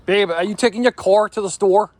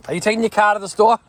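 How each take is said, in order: First: Higher, louder, careful R's on "car" and "store"; R's pronounced. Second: Higher, louder, fast, "car" and "store" without R's; Boston accent. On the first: Husband trying out pronounced R's on his wife. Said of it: "watch how weird this sounds when I do use it". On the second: Husband asking wife in his natural Boston accent. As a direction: drop the R's in "car" and "store" Boston-style, quick and bright. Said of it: "Yeah, that's better". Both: Shown as a demonstration.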